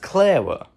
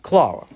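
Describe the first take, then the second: First: It is said with an American accent. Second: It is said with a British accent. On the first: "in America it's pronounced Clara" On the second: "in Britain is pronounced Clara"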